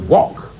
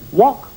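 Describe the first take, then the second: First: It falls like a firm answer. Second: It rises like a question.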